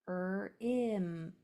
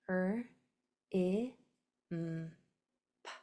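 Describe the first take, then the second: First: The sounds are run together quickly. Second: Each sound is said slowly and separately. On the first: The speaker calls it wrong. "I blended those too quickly" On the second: The speaker calls it right. "Let me do that better"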